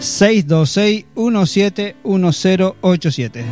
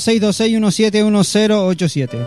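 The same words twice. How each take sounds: First: The number is said slowly. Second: The number is said fast.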